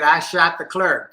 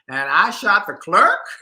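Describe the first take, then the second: First: It is a flat statement falling at the end. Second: It is a disbelieving question rising at the end.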